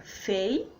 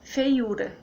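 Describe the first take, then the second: First: "fei-u-ra" in three separate beats; syllable by syllable. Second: Said in the usual way. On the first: Shown as a demonstration. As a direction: pause between fei, u and ra. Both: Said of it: "que fica".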